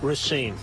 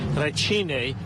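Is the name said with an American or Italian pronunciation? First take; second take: American; Italian. First: The name is said in a plain American way. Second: The name is said in an Italian way.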